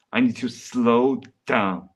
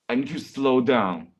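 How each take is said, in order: First: Deliberately slowed down. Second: Said in the usual way. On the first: Real, not acted. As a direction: stretch it out to rein in your pace. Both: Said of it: "I'm talking too fast".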